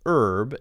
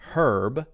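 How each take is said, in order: First: It is said with an American accent. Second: It is said with a British accent. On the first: "in American English it's herb" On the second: "in British English it's herb"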